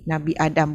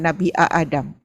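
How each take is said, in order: First: The opening vowel is one smooth, long sound. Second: The opening vowel is broken into two separate parts. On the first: The speaker calls it right. "Nama Nabi Nabi Adam" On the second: The speaker calls it wrong. "bukan Nabi A Adam"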